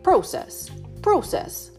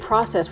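First: Said in the British pronunciation. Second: Said in the speaker's own usual pronunciation. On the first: This is how the British people say it. "where they're like, process" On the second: This is how the speaker's own group says it. "we say process"

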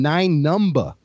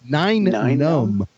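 First: The name ends with a strong B sound. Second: The name ends without a B sound. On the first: "really stress the B at the end of num" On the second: "is what nine people call Nine Num"

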